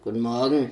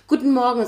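First: The greeting sounds grumpy and unfriendly. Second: The greeting sounds bright and cheerful. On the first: "wie die Frau unfreundlich ist am Morgen" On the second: "Ich total fröhlich, ja, ich weiß, tiefe Stimme, aber super fröhlich"

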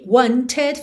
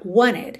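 First: The T after the N is clearly pronounced. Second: The T is dropped and the N links on.

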